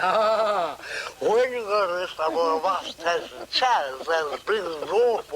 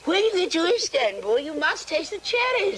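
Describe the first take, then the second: First: Upper-class English with teeth gritted, mumbled and clipped; long tooth accent. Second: Said in the usual way. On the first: Retold or imitated. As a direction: mumble it posh through long front teeth. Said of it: "Long tooth accent". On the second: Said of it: "And she said".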